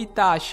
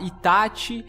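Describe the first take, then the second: First: The name is said with the Brazilian pronunciation. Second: The name is said with the Japanese pronunciation. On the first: "e não" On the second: "tentando me condicionar a pronunciar"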